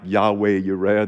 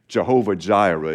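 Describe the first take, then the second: First: The words begin with a Y sound. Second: The words begin with a J sound. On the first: This is closer to the original Hebrew. The speaker calls it right. "It's probably more like" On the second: This is the customary way of saying it. The speaker calls it wrong. "we might traditionally say"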